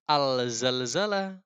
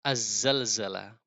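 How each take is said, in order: First: The l is pronounced clearly before the z. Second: The l merges into the following z sound. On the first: The speaker calls it wrong. "bukan Al-Zalzalah" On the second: The speaker calls it right. "lamnya diidghamkan masuk ke huruf selanjutnya ke zai"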